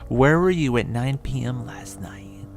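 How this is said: It is said in a put-on cowboy accent.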